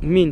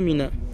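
First: The word ends on the consonant n. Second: The word ends with an added a vowel. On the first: The speaker calls it right. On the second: The speaker calls it wrong. "pas Mina"

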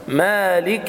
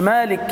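First: The k is followed by a short clear i. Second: The k has no vowel after it. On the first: The speaker calls it right. "بيان كسرة الكاف لأنها مكسورة" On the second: The speaker calls it wrong. "مالك انت كده سكنت الكاف"

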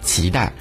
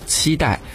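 First: It uses the Taiwan tone on the first syllable. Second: It uses the mainland tone on the first syllable. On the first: "在台湾呢会被读作期待" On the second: "我们内地会讲期待"

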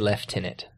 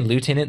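First: It is said in the British way. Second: It is said in the usual American way. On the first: "they say Lieutenant. It's like it's one of those Britishisms" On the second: "instead of saying Lieutenant"

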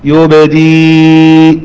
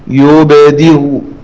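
First: The final hamza becomes a plain long ya sound. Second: The final hamza is softened with a faint vowel. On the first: "يبقى سكونها عارض بعد الكسر نبدلها ياء قياسي" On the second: "والتسهيل برو تسهل كالواو"

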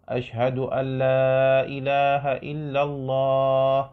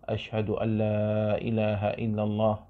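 First: It is said in a raised, loud voice. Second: It is said in a low, quiet voice. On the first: "ثم يأتي بهما بصوت مرتفع" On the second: "يأتي بالشهادتين سرا بصوت منخفض"

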